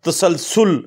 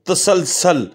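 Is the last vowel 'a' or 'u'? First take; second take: u; a. First: The last vowel is 'u'. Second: The last vowel is 'a'. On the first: The speaker calls it right. "दुरुस्त लफ्ज़ तसलसुल" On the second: The speaker calls it wrong. "ये लफ्ज़ दुरुस्त नहीं है"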